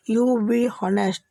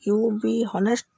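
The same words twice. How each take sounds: First: Very slow, each word clearly separated; slow teaching demo. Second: Said in the usual way. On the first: Shown as a demonstration. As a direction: model it slowly for learners. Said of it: "English में क्या बोलना होगा". (धीमे और साफ़ बोलें) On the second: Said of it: "तुम ईमानदार बनो".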